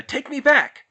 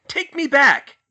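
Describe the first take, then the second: First: Angry yell. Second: Even louder, desperate yell; louder furious demand. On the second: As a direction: scream it, losing control. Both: A narrator's reading. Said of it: "he yelled".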